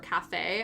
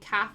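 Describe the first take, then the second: First: It ends with a clear final vowel sound. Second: It ends without a final vowel sound. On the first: "I'm like pretty sure you pronounce the A, the E at the end of it" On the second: "in the U K they don't pronounce the E in cafes"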